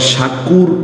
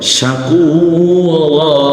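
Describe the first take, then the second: First: The word ends abruptly on a consonant. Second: The word ends with a lengthened 'a' vowel. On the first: The speaker calls it wrong. "আবার শাকুর ও বলবো না" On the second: The speaker calls it right. "যদি এটা থেমে যাওয়ার জায়গা হয় শাকুরা"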